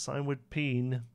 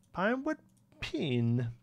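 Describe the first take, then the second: First: Said in the usual way. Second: High rising first word, amused; amused high reading. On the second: Pretend. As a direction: say it up high, laughing at the typo. Repeats typo name mockingly.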